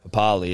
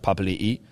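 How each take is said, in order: First: The name ends on a single final vowel. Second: The name ends with a repeated final vowel. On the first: The speaker calls it wrong. "it's not Papali" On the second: The speaker calls it right. "it's Papali'i"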